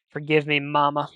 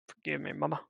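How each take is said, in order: First: Loud quote with a hint of cartoon hunk; loud, lightly acted plea to mama; Johnny Bravo-like. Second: Understated cartoon-style plea to mama; Johnny Bravo-like. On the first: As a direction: call it out loudly, lightly cartoonish. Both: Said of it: "the way I said it reminded me of Johnny Bravo".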